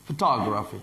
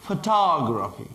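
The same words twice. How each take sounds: First: Said in the usual way. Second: "Photography" stretched slowly with "tog" held long; slow stressed demo. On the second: Shown as a demonstration. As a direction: drag out "Photography", leaning on "tog". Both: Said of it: "تا، تا".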